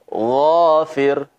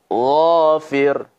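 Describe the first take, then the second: No difference in how they are said.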